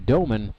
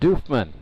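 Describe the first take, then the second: First: The name is said with no f sound. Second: The name is said with an f sound. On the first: This is how the spelling suggests it. The speaker calls it wrong. "It's spelled like it should be Doman" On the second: This is how its owner says it. The speaker calls it right. "but it's actually pronounced Doofman"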